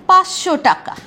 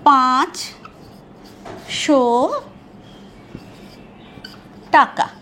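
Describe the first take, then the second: First: The ch sound drops and merges into sh. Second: The ch sound is clearly pronounced, words kept apart. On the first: "পাঁচ চ উড়ে চলে গেল, এখানে তালবস্যা এসে গেল" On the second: "এইটাকে আমরা কিভাবে বলবো?"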